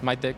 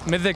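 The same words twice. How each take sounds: First: It is said the way Burmese speakers say it. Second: It is said the way the team says it. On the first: This is how others locally say the name. The speaker calls it wrong. "the Burmese pronounce it as Mythic, which is not the correct pronunciation" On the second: This is how the team wants the name said. The speaker calls it right. "that's the correct pronunciation"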